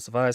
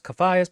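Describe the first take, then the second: First: The name begins with an S sound. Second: The name begins with a K sound. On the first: This is how the speaker has said it since first reading it. "but I pronounce it Sophias" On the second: This is the official pronunciation. "which is pronounced Caphias"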